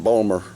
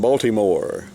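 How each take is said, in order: First: The name is clipped and run together. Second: The name is said in full. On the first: "so we say Balmer" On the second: "some people live in Baltimore"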